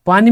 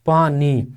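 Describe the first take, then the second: First: Said in the usual way. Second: पानी as two distinct beats, पा then नी; split into syllables. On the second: Shown as a demonstration. Teacher showing two syllables in पानी, split into syllables. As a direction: break पानी after पा. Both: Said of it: "पानी में भी double syllable है".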